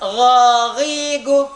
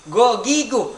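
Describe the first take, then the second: First: The first consonant is a rough throat sound. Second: The first consonant is a plain hard g. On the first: The speaker calls it right. "Bapak baca" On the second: The speaker calls it wrong. "itu salah dibaca gogigu"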